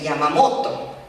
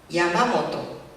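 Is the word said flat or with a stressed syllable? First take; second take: stressed; flat. First: The stress falls on the second-to-last syllable. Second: It is said flat, with no stressed syllable. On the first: "el castellano tiene un acento grave" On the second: "En el japonés ese acento no existe"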